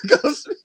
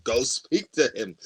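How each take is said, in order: First: Laughing, high-pitched and loud. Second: Said in the usual way. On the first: Real, not acted. Laughing while retelling pushing the ex. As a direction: laugh through the retold push. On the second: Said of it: "pushed her slightly".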